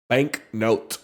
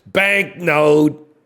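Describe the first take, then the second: First: It is said in his normal voice. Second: It is said in a funny put-on voice.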